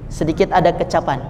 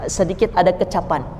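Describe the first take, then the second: Both takes have the same delivery.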